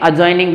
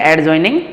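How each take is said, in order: First: The d sound is silent before the j. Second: The d sound is pronounced before the j. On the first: The speaker calls it right. "अजॉइनिंग बोलेंगे" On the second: The speaker calls it wrong. "एडजॉइनिंग नहीं बोलेंगे"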